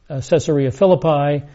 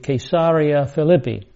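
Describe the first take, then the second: First: The stress in Philippi is on the first syllable. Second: The stress in Philippi is on the second syllable. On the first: This is how many people say it. The speaker calls it wrong. "Many people pronounce it" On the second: This is the better way to say it. The speaker calls it right. "A better pronunciation would be"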